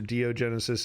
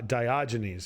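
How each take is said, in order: First: The name is said in a garbled form. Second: The name is said in its standard form. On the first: The speaker calls it wrong. "I'm sure I'm saying that wrong" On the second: The speaker calls it right. "See, there we go"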